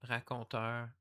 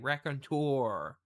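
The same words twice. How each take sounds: First: It is said with a French pronunciation. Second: It is said with an American pronunciation. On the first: "It's a French word" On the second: "if Americans say raconteur"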